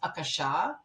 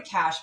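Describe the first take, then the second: First: The word ends on a vowel sound. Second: The word ends on a consonant sound. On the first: The speaker calls it right. "Akasha is the actual pronunciation" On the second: The speaker calls it wrong. "we call it the Akash"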